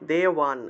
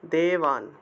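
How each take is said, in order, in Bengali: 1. মাঝের ব্যঞ্জনটি w ধ্বনি। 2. মাঝের ব্যঞ্জনটি b ধ্বনি।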